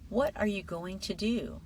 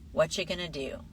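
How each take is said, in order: First: Every word is pronounced fully and carefully. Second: The words are reduced and run together. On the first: "the textbook version first" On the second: "then the natural version"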